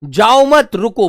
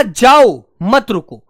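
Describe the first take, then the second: First: जाओ मत run together, then रुको separately; group जाओ with मत, slight break before रुको; pause after मत. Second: Loud drawn-out जाओ, break, then मत रुको; pause after जाओ. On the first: Teacher showing what the speaker meant, break after मत. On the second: Teacher showing what the listener heard, pause after जाओ. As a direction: set जाओ apart, keep मत रुको together. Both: Shown as a demonstration. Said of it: "सुनने में और कहने में अंतर".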